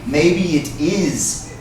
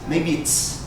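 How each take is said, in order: First: "It is" is said as two full words. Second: "It is" is run together as "it's". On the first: The speaker calls it wrong. "Most people wouldn't say" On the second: The speaker calls it right. "run this together in a contraction"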